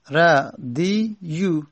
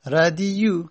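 First: ردیو stretched slowly, syllable by syllable; drawn out slowly. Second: Said in the usual way. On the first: Shown as a demonstration. Teacher slowly spelling out the original form to students. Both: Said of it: "اصلش بوده ردیو".

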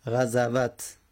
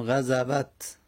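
First: Said in the usual way. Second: غزوت drawn out slowly, each syllable separate; slow careful spelling-out. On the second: Shown as a demonstration. Teacher slowly sounds out غزوت for students. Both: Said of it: "چهارم غزوت".

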